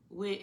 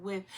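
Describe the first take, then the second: First: "With" said as "wit", ending in t; final t. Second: "with" ending in a soft th; careful "with", tongue between teeth for th; standard th. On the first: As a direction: end "With" on a hard t sound. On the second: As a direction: finish "with" on a clear th sound. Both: Shown as a demonstration. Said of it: "instead of".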